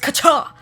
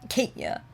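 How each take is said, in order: First: The first part sounds like catch. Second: The first part does not sound like catch. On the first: This is how the name's owner says it. The speaker calls it right. "it's Kacha, like Koch, like catch" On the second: This is how other people say the name. The speaker calls it wrong. "People say my name Katya"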